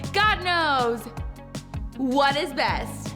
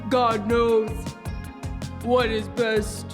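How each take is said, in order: First: It is said in a normal voice. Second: It is said in a deep voice.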